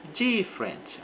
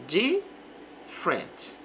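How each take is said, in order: First: Said in the usual way. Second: "Different" as two syllables, the e before r dropped, said slowly; slow "Different" as diff-rent. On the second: Shown as a demonstration. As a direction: stretch out "Different" with no middle e. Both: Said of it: "Aqui o E antes do R desaparece".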